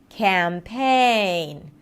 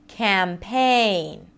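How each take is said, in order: No difference in how they are said.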